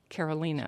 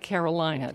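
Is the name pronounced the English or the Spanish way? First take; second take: Spanish; English. First: The name is pronounced with Spanish sounds. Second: The name is pronounced with English sounds. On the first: The speaker calls it right. "but it is in the Spanish pronunciation" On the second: The speaker calls it wrong. "It looks like Carolina to the rest of us"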